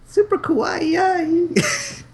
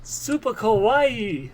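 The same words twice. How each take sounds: First: High, drawn-out cutesy squeal; cutesy anime girl. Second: High, slow kawaii coo; cutesy anime girl. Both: Pretend.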